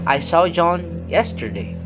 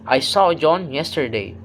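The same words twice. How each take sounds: First: The main stress falls on the word yesterday. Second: The main stress falls on the word saw. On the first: It happened yesterday, not today. "The contrast is yesterday is not today" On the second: John was seen, not just heard about. "The contrast is I saw him, not heard about him"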